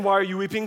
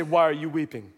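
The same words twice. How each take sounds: First: Said in the usual way. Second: Lower-pitched, gentle question with falling end; somebody else's voice. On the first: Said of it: "As they're saying". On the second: Retold or imitated. Jesus asking weeping Mary from behind, in a lower voice. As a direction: ask it lower, as a second speaker. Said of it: "she hears somebody else say".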